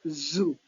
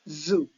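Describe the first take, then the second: First: The word starts with a buzzing z sound. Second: The word starts with a buzzing z sound.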